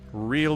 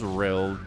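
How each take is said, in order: First: Said in a neutral American accent. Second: Said in a Utah accent, vowel flattened.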